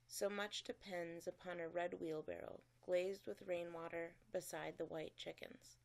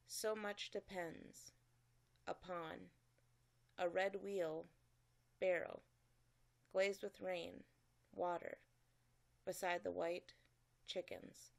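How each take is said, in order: First: It is read smoothly as one whole sentence. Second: It is read choppily with pauses at each break. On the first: The speaker calls it right. "That is to be read like a whole sentence" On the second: The speaker calls it wrong. "My second reading of The Red Wheelbarrow sounded very choppy"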